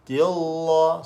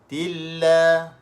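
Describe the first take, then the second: First: The L sound is heavy and thick. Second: The L sound is light and thin. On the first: The speaker calls it wrong. "Jangan baca tilla" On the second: The speaker calls it right. "Baca nipis"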